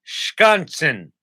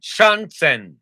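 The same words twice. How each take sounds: First: Put-on "schaatsen" high and loud, in mid-Atlantic accent; mid-Atlantic pronunciation. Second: "Schanzen" loud and high, German-style; German pronunciation. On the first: Attempting the Dutch word "schaatsen", mid-Atlantic accent. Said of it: "I said a Dutch word in a mid-Atlantic accent". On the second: Shown as a demonstration. Retrying the word for co-host, emphatic German "Schanzen". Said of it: "if it's pronounced the German way".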